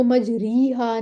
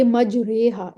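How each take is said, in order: First: मजरीहा with a full "ee" after the r; long "i" instead of imala. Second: मजरेहा with a long "e" after the r, bent between a and i; imala. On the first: Teacher shows the reading to avoid, long ee in place of imala. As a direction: say मजरीहा with "ree" as in "reed". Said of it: "इसको मजरीहा नहीं पढ़ेंगे". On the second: Teacher shows the correct reading of the word, imala. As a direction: say मजरेहा with "re" as in "ray". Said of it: "बड़ी ये लगा देंगे". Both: Shown as a demonstration.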